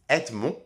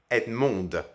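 First: The final D sound is silent. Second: The final D sound is pronounced. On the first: It is the masculine form of the name. "my name is Edmond" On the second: It is the feminine form of the name. "if I want to change it to the feminine form, in this case, I would pronounce it Edmond"

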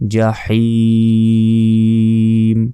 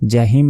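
First: The h is a deep, throaty h. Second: The h is a light, breathy h. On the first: The speaker calls it right. "এখানে ছোট হা নেই, বড় হা আছে।" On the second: The speaker calls it wrong. "জাহিম নয়"

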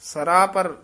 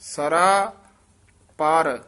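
First: The word is said as one plain word. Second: The word is said with a drawn-out vowel. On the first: The speaker calls it wrong. "ਸਰਾਪਰ ਨਹੀਂ ਕਹਿਣਾ" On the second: The speaker calls it right. "ਇਕੱਠਾ ਹੀ ਲੰਮੀ ਜੀ ਆਵਾਜ਼ ਨਾਲ ਬੋਲਣਾ"

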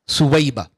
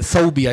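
First: The name is said as Thuwaiba. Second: The name is said as Thawbia. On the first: The speaker calls it right. "It's not Thawbia, it's Thuwaiba" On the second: The speaker calls it wrong. "Normally in the subcontinent they call it Thawbia"

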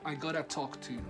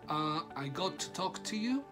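First: Got to is reduced to one short word. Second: Got to is said as two full words. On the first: "Contraction number two, gotta" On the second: "que vendría siendo de got to"

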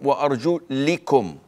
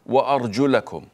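First: The vowel before -kum is i. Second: The vowel before -kum is a. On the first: The feet are to be wiped over. "the other recitation goes as" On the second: The feet are to be washed. "one meaning, which is we all read it"

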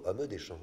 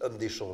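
First: The mute e of homme is pronounced. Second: The mute e of homme is dropped. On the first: The speaker calls it right. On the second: The speaker calls it wrong. "il y a des muets qui sautent aussi"

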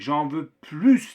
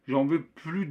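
First: Plus ends with a clear s sound. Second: Plus ends without a final s sound. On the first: The speaker wants more. "daha fazla istiyorum anlamına gelecektir" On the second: The speaker does not want any more. "j'en veux plus değil de"

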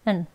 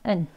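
The two takes are said the same way.

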